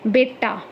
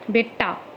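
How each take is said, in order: First: Said in the usual way. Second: बेटा said as बेट्टा, with a held double retroflex ट; doubled t in Khari Boli. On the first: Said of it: "जैसे बेटा को क्या बोलते हैं?". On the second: Shown as a demonstration. Teacher showing students the Khari Boli बेट्टा. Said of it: "संयुक्त व्यंजन तथा द्वित्व".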